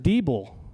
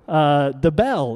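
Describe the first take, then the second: First: The name begins with a long 'dee' sound. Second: The name begins with a short 'duh' sound. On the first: The speaker calls it wrong. "is this Mr. Diebel? And I'm like, no, it is not" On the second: The speaker calls it right. "DeBell is how you pronounce it"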